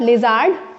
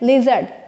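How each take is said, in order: First: The second syllable is stressed and long. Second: The first syllable is stressed. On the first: The speaker calls it wrong. "It's not lizard" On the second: The speaker calls it right. "ली is more stressly pronounced"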